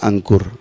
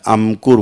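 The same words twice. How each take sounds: First: The nasal before k is an n sound. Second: The nasal before k is an m sound. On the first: "A N के यू आर ऐसे लिखते हैं ना" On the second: "माँ का उच्चारण आता है, अंकुर बोला जाएगा"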